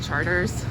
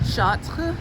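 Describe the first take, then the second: First: It is said the New Orleans way, like 'Charters'. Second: It is said the French way, like 'Chartres'.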